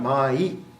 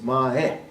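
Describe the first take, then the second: First: The word ends with an 'eye' sound. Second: The word ends with an 'ah-eh' sound. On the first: The speaker calls it wrong. "So it's really not mai" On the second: The speaker calls it right. "it's mae"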